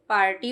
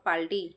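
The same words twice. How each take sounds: First: The middle consonant is a strong R sound. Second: The middle consonant is an L sound. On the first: The speaker calls it right. "रा ज्यादा इसलिए बोल के कर रही हूँ" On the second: The speaker calls it wrong. "Not पार्टी"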